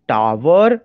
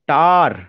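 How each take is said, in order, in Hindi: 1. यह शब्द दो सिलेबल में बोला जाता है। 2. यह शब्द एक सिलेबल में बोला जाता है। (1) "अगर मैं उसका उस तरह से प्रोनाउंसिएशन करूंगा तो दो सिलेबल निकाल रहा हूं" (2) "there is only one syllable"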